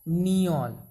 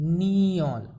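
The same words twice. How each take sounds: Both takes have the same delivery.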